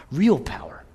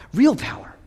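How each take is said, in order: First: Real power whispered; whispered to the congregation; whispered first take. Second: Higher and louder on Real power; proclaimed to the church; raised repeat. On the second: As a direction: lift it up the second time. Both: Real, not acted.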